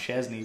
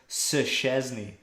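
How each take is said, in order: First: The name starts straight away with a ch sound. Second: A separate s sound, like 'sir', comes first. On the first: "I just say it all in one" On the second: "He's pronouncing the S before he actually says Chesney"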